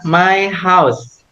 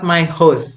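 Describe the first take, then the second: First: The word is said like house. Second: The word is said like host. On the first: The speaker calls it right. "my house, not my host ya" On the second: The speaker calls it wrong. "not my host ya"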